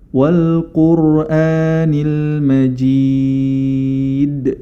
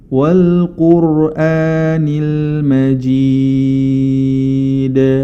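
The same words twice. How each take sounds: First: The final d is pressed and cut off. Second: The final d is bounced and made clear. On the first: The speaker calls it wrong. "contoh yang kurang tepat ... itu tertekan" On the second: The speaker calls it right. "qalqalah itu dipantulkan dan dibaca lebih diperjelas lagi"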